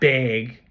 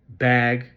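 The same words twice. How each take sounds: First: It is said with a Midwestern vowel. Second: It is said with a non-Midwestern vowel. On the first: The speaker calls it wrong. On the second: The speaker calls it right.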